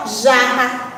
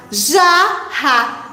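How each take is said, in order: First: Said in the usual way. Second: "Jarra" broken into JA, RRA; syllable by syllable. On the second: Shown as a demonstration. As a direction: separate the two syllables of "Jarra". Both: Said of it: "vamos contando as sílabas".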